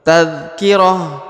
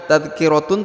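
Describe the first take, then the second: First: The word ends with a soft h sound. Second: The word ends with a full tun syllable. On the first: The speaker calls it right. "tapi tadhkirah" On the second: The speaker calls it wrong. "bukan tadhkiratun"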